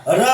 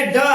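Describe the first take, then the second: First: र said as ड़, a retroflex flap; dotted ड flap. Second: Said in the usual way. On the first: Shown as a demonstration. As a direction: flick the tongue for र, as in ड़. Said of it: "ड को नीचे बिंदी ले दिए". (र को ड़ की तरह जीभ पलटकर बोलें) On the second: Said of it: "इसको क्या बोलेंगे?".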